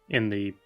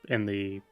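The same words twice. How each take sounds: No difference in how they are said.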